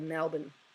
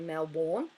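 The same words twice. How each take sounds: First: The last syllable sounds like 'bin'. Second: The last syllable sounds like 'born'. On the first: This is how Australians say it. "but we go Melbourne" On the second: This is how Americans say it. "a lot of Americans say Melbourne, they go Melbourne"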